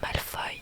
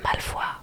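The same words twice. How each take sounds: First: The name is said with the usual pronunciation. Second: The name is said with her personal pronunciation. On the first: This is how the name is normally said. The speaker calls it right. "au lieu de Malfoy" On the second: This is a pronunciation made up in childhood. The speaker calls it wrong. "que c'est Malfoy"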